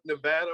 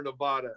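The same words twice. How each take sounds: First: "Nevada" with a short a as in "cat"; alternative pronunciation. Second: "Nevada" with a broad ah in the middle; other pronunciation. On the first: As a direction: stress the middle of "Nevada", nuh-VAD-uh. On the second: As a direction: stress the middle of "Nevada", nuh-VAH-duh. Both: Shown as a demonstration. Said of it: "however you wanna say it".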